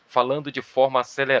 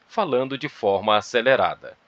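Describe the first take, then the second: First: It is read at a faster, hurried pace. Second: It is read at a calm, measured pace. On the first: "Pode ser um ritmo mais acelerado? Pode" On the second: "Esse é um ritmo de fala que eu incorporei"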